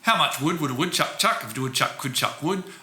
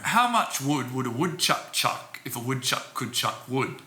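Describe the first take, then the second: First: It is spoken quickly. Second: It is spoken slowly. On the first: "a second time quickly" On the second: "I'll do it once slowly"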